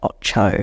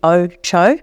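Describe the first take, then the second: First: The first vowel is short. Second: The first vowel is long. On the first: This is how the name is actually used. "a short little initial vowel" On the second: It follows the sound of the place name it comes from. "that should be Ocho"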